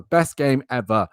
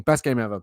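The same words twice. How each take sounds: First: Best game ever stretched out slowly, dripping irony; slow drawn sarcasm. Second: Low, soft dry sarcasm on Best; deadpan sarcasm. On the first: Podcaster repeating his sarcastic praise, slower and heavier. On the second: Podcaster sarcastically praising the game that killed his character, low and dry. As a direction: say Best game ever flat and low, not meaning it. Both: Real, not acted.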